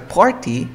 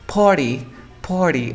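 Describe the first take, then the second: First: Party with a clear T; "party" keeping T after R; full T pronunciation. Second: Party said "par-ee", no T; "party" gliding from R to vowel; natural reduction. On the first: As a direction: say "party" as written. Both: Shown as a demonstration. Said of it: "es más natural decir".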